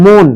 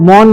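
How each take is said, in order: First: Second মন with rounded o, "mohn"; closed o in মন. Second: First মন with open aw, "mawn"; wrong open vowel. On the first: Teacher gives the correct sound, closed o in মন. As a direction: round the vowel of মন. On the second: Teacher rules out a pronunciation, open aw in মন. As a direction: open the vowel of মন to show the mistake. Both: Shown as a demonstration. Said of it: "মন নয়, মন".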